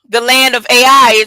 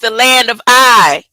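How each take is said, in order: First: The last word sounds like two syllables, ay-eye. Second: The last word sounds like one syllable, eye. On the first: The speaker calls it wrong. "it's not pronounced A I" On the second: The speaker calls it right. "It's pronounced the land of I"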